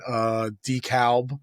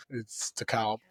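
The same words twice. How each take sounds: First: DeKalb said "dee-kaub", dropped L; Brooklyn pronunciation. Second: DeKalb said "deh-kaub", stress on second syllable; standard pronunciation. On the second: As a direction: DeKalb said the correct way. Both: Shown as a demonstration.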